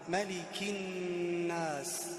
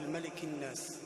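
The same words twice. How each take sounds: First: The doubled n is held with a nasal hum. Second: The doubled n is short without nasal hold. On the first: The speaker calls it right. "تكررت معنا الغنة" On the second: The speaker calls it wrong. "ولا نقول"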